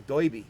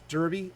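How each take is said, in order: First: Put-on "doiby" in an old Gotham accent, "oi" for "er"; old New York "oi" vowel in "doiby". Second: Said in the usual way. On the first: Shown as a demonstration. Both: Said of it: "had such a thick old Gotham accent".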